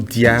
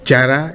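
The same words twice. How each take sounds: First: The name begins with a 'di' sound. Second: The name begins with a 'j' sound. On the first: The speaker calls it wrong. "et non" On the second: The speaker calls it right.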